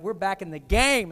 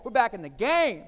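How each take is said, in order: First: We're back in the game, louder, landing hard on game; proud wife calling it out; excited announcement. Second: We're back in the game, louder, landing hard on game; excited announcement. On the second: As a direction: say it again just like she did. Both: Retold or imitated. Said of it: "And she said it like that".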